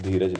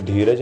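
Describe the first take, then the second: First: धीरज begun with dental dh, tongue on the teeth; correct reading. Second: धीरज begun with retroflex ḍh, tongue curled back; wrong reading. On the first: Teacher gives students the right reading, धीरज with dental dh. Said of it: "नहीं धीरज लिखा है". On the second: Teacher rules out a misreading, धीरज said with retroflex ḍh. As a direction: say धीरज with the hard ढ of ढक्कन. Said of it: "यहाँ पे धीरज नहीं". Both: Shown as a demonstration.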